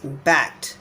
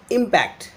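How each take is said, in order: First: Impact with the stress on -PACT; imPACT, strong second syllable; verb stress. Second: Impact with the stress on IM; IMpact, strong first syllable; noun stress. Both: Shown as a demonstration. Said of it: "the verb form is impact".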